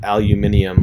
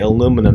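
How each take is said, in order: First: It is said with the British pronunciation. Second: It is said with the American pronunciation. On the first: "not aluminium, like they talk about in England" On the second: "I say aluminum, ... in an American accent"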